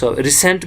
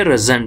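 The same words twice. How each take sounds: First: रिसेंट said with a clear s, ri-sent; teacher offers रिसेंट with s; with s sound. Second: रिजेंट said with a buzzing z, ri-zent; teacher offers रिजेंट with z; with z sound. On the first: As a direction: say रिसेंट with a hissed s. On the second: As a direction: say रिजेंट with a z in the middle. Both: Shown as a demonstration. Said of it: "ज भी पढ़ सकते हो".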